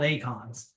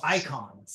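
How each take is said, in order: First: The word is said with a Greek-style vowel. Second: The word is said with a German-style vowel. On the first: This follows the classical pronunciation. The speaker calls it right. "they should be called acons" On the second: This is how the game's voice actors say it. The speaker calls it wrong. "a little bit more German than Greek pronunciation um, from our voice actors"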